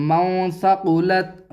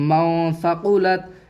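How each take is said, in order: The two takes are said the same way.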